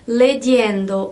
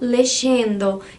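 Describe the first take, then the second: First: The y is said as a consonant y sound. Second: The y is said as an sh sound. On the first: "é leyendo... vocês têm que fazer esse som diferente" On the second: "ou lexendo"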